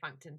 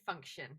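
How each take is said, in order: First: The name is said with a plain 'ton' ending. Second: The name is said like the word 'function'. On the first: Many other people say it this way. "loads of people say functon" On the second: It refers to being functional. "I say function because it's functional"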